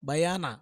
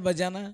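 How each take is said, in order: First: The middle consonant is a 'y' sound. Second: The middle consonant is a 'j' sound. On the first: This is the original form of the word. The speaker calls it right. "దాని అసలు పదం తెలుసా మీకు?" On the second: This is the everyday corrupted form. The speaker calls it wrong. "మనం అంటాం కదా బజానా"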